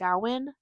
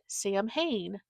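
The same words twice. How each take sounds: First: The name is not sounded out as spelled. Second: The name is sounded out as it is spelled. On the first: The speaker calls it right. "It's pronounced Samhain" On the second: The speaker calls it wrong. "that looks like if you would pronounce it Samhain"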